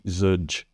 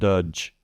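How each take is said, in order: First: The word begins with a Z sound. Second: The word begins with a D sound. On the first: "or a Z" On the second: "trying to make a D sound"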